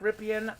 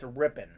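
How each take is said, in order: First: The name is said with three syllables. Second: The name is said with two syllables. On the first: The speaker calls it wrong. "Looks like Ripien" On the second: The speaker calls it right. "but it's Rippin"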